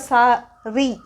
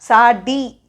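First: The second consonant is an r sound. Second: The second consonant is a retroflex d sound. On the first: The speaker calls it right. "याचा उच्चार सा री" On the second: The speaker calls it wrong. "सा डी मराठीतला नाही"

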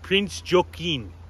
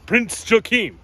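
First: It is said in the speaker's normal accent. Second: It is said in a put-on German accent.

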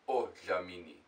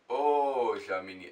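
First: The first vowel is short, not drawn out. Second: The first vowel is drawn out long. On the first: The speaker calls it wrong. "It's not odlamini" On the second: The speaker calls it right. "you've got to draw it out, like odlamini"

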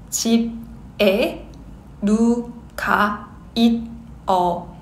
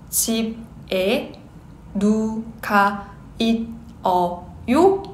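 Both takes have the same delivery.

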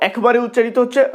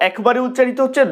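The two takes are said the same way.

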